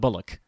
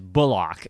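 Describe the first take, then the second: First: The last syllable is weak and reduced. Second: The last syllable is a full, clear 'ock'. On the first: The speaker calls it wrong. "It's not Bullock" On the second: The speaker calls it right. "Got to give it the full Ock treatment"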